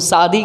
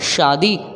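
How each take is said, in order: First: It starts with a plain dental s. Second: It starts with a palatal sh. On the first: The speaker calls it wrong. "गलत है कि नहीं है?" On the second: The speaker calls it right. "शादी क्या होगा?"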